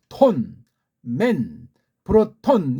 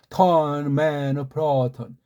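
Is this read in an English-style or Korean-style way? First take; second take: Korean-style; English-style. First: Each syllable is fully and separately pronounced. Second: The syllables are reduced and flow together smoothly. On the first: "우리말처럼 ... 이건 우리식의 읽기예요" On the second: "걔네들은 ... 그렇게 읽고 그렇게 흘러가는"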